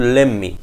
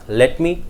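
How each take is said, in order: First: "let me" as "lemme"; reduced form. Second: "Let me" with a clear t; full form. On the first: Teacher contrasts to clarify the concept, reduced. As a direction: drop the t in "let me". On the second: Teacher contrasts to clarify the concept, full. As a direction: sound both words of "Let me". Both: Shown as a demonstration. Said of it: "Make the concept more clear".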